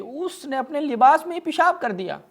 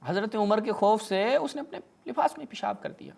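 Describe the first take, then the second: First: Much higher, louder mock astonishment; high incredulous outcry; mock-shocked exclamation. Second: Said in the usual way. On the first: Real, not acted. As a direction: exclaim it like an unbelievable scandal. Shocked punchline of story.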